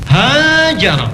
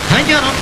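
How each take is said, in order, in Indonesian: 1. Vokal pertama dipanjangkan. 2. Vokal pertama dipendekkan.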